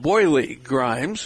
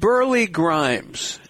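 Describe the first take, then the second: First: The name is said in a New York accent. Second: The name is said in a neutral accent.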